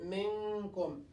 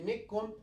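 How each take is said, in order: First: The n is half-hidden with a held nasal sound. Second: The n is dropped and merged into k. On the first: The speaker calls it right. "We'll say min, minkum" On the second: The speaker calls it wrong. "We will not kill it. We say mikkum"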